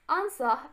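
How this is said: It is said in a British accent.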